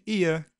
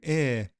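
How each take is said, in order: First: The vowel glides from one quality to another. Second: The vowel stays steady as one long sound. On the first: The older form of the vowel. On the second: The current smoothed form of the vowel.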